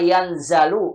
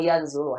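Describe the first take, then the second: First: The second syllable has the vowel a. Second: The second syllable has the vowel u. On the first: "jangan dibaca" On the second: "jangan dibaca"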